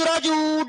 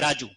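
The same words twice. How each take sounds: First: The name is called out loudly with long vowels. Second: The name is said at ordinary length and volume. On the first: The person being called is far away. "ऐसा बोलना पड़ेगा ना" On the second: The person being spoken to is nearby. "ये दीर्घ है"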